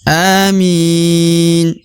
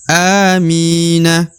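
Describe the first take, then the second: First: The word ends on the consonant n. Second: The word ends with a short final vowel. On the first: The reading stops at the end of the verse. "Kalau berhenti maka dibaca amin" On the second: The reading continues without stopping. "Kalau kita baca tidak berhenti"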